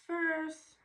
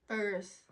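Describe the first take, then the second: First: First. yelped high and loud; First. shrieked high and loud in disbelief; high shocked cry. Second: Exclaimed shock. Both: Real, not acted. Shocked at hair loss.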